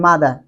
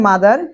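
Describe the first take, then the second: First: 'মাদার' said as 'madaa', r dropped; British pronunciation. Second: 'মাদার' with final r sounded; American pronunciation. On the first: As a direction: drop the r of 'মাদার', falling. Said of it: "আরটাকে উচ্চারণ করে না". (British ধাঁচে 'মাদার', র ছাড়া) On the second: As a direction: end 'মাদার' on a clear r, rising. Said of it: "আমেরিকানরা বলে মাদার". (American ধাঁচে 'মাদার', র সহ) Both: Shown as a demonstration.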